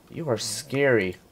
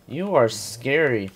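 First: Said in the usual way. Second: Slow, deliberate mock menace; drawn-out teasing repeat. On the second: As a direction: stretch each word out slowly. Player repeats line to creature.

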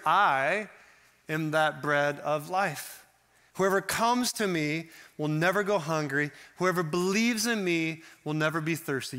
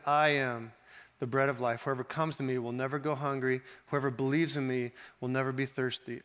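First: A ringing proclamation from the pulpit; bold declaration. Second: Gentle rereading. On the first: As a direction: proclaim "I am that bread of life" like a decree. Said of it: "Jesus declared". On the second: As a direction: read it again tenderly, as an invitation. Verse reread more gently. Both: Shown as a demonstration.

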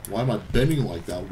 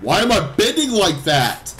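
First: Low, soft questioning; low-pitched, restrained irritation; subdued bafflement. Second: Raised voice, pitch swooping up; exasperated outburst. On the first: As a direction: ask it under control, quietly puzzled. Baffled by the game character. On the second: Repeats it, exasperation boiling over. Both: Real, not acted.

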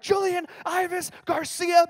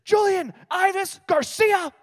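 First: High, slow drawn-out full-name call; mom calling full name. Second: High, loud, slow drawn-out full-name call; mom yelling full name. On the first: Mom summoning her son, high drawn-out call. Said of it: "as soon as I heard". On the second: Mom calling her son across the lunchroom, loud slow yell. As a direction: bellow his full name like an angry mom. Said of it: "I hear this". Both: Retold or imitated.

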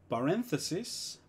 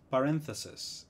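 First: Paréntesis con final is; singular inglés. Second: Paréntesis con final es; plural inglés. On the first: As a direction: di paréntesis terminando en is. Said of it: "Si algo termina con is". (paréntesis singular en inglés) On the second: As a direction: di paréntesis terminando en es. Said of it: "lo voy a pasar a es". (paréntesis plural en inglés) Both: Shown as a demonstration.

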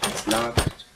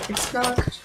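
First: Breathy whispered it's locked. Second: Said in the usual way. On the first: Shown as a demonstration. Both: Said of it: "repeated takes of same line".

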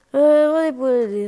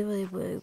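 First: Higher, louder nurse pointing to the bed; loud staff voice. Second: Said in the usual way. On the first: Pretend. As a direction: boom out the directions like a busy nurse. Voicing the hospital staff.

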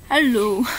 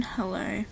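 First: Filipino hello. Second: Australian hello. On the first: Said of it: "This is the Filipino version". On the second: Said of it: "So that is the Australian version". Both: Shown as a demonstration.

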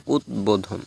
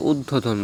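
First: উদ্বোধন with d and b both sounded, ud-bo-dhon; correct pronunciation. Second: উদ্বোধন with doubled d, ud-do-dhon; wrong pronunciation. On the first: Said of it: "সঠিক উচ্চারণ হচ্ছে". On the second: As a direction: drop the b from উদ্বোধন. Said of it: "অনেকে উদ্বোধন বলে". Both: Shown as a demonstration.

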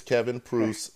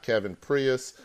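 First: "Pruse" as one syllable with a long oo; the corrected one-syllable "Pruse"; corrected name pronunciation. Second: "Prius" in two syllables, like the car; the wrong two-syllable "Prius"; mispronounced name. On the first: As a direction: say "Pruse" to rhyme with goose. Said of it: "it's not Kevin Prius". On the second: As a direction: say "Prius" as PREE-us, with an extra syllable. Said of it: "I will never say that again". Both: Shown as a demonstration.

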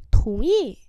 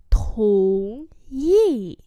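First: Said in the usual way. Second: Two long syllables; slow model for learners; slow demonstration. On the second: Shown as a demonstration. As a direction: stretch out both tones. Teacher repeats phrase slowly.

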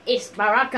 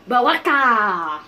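First: Said in the usual way. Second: Loud, drawn-out name shout; hammed-up call. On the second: Gamer spotting Baraka, hammed-up drawn-out call. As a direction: stretch the name out like a mock announcement. Calls out the character, then plainly.

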